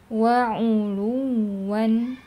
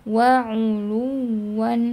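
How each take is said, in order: No difference in how they are said.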